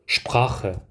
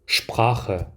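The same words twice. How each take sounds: The two takes are said the same way.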